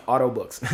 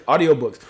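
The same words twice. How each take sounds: First: "auto books" with the middle syllable slurred; slip of the tongue. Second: Said in the usual way. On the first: Real, not acted. Host tripping over "auto books", fumbled. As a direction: stumble "audio" down into "auto" in "auto books".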